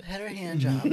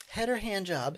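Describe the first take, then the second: First: Breaking into a laugh on the quote; can't keep a straight face; laughing through it. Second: Lightly voiced sweet stewardess; mock stewardess. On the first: Retold or imitated. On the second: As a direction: ask it like a chirpy flight attendant. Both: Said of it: "the stewardess is coming down like".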